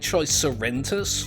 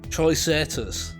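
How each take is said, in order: First: An extra 'en' sound comes before the ending. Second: No extra 'en' sound comes before the ending. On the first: The speaker calls it wrong. "I keep saying tricerentus for some reason" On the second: The speaker calls it right. "There's no N there"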